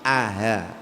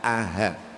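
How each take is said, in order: No difference in how they are said.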